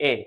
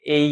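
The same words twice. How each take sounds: First: এ said as the wrong short vowel; wrong vowel sound. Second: এই drawn out as a long vowel; long vowel sound. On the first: Teacher shows the sound not to say. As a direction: contrast the wrong এ. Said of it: "not এ". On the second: Teacher models the long vowel for kids. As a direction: hold এই long and clear. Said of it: "এই এর মতো উচ্চারণ হবে". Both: Shown as a demonstration.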